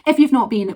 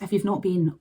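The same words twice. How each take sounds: First: If you've not been, higher and louder with punch on you've; emphatic repeat. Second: Said in the usual way. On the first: Real, not acted. Urging viewers who never saw Glencoe, emphatic. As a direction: lean hard into you've, pushing the point.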